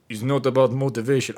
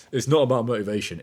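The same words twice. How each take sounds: First: Brief put-on boxer voice, a touch louder; imitating Usyk. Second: Said in the usual way. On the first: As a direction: quote the boxer in his own voice. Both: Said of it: "I'm not gonna try that".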